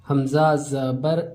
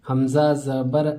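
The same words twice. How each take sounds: The two takes are said the same way.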